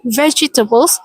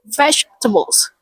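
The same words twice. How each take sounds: First: Every syllable of the word is pronounced. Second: The second syllable is dropped. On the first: "Instead of saying" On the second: "skip the second syllable and say it like"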